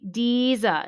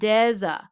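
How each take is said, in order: First: The first syllable does not sound like 'desert'. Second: The first syllable sounds like 'desert'. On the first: The speaker calls it wrong. "They say Deeza instead of Deza" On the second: The speaker calls it right. "just like the first syllable of a desert"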